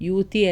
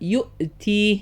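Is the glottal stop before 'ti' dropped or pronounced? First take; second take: dropped; pronounced. First: The glottal stop is dropped between syllables. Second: A clear glottal stop separates the syllables. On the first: The speaker calls it wrong. "യു തീ അല്ല" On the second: The speaker calls it right. "കൃത്യമായി ആ ഹംസ ഉച്ചരിക്കുക തന്നെ വേണം"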